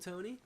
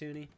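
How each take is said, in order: First: The first vowel sounds like 'toe'. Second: The first vowel sounds like 'too'. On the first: The speaker calls it wrong. "It's not Tony" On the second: The speaker calls it right. "It's Toonie"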